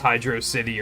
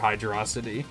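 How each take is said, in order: First: It is said as two words, ending in 'city'. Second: It is said as one blended word. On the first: The zone is simply a city of water. "Hydro City sounds remarkably basic" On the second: The name is a play on words. "Hydrosity sounds way cooler"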